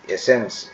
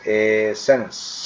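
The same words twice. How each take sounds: First: Said in the usual way. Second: এসেন্স slowly split as e-sens; teacher's drawn-out এসেন্স; split pronunciation. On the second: Shown as a demonstration. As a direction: hold the first vowel of এসেন্স, then say sens. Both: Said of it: "এ উচ্চারণ করবে".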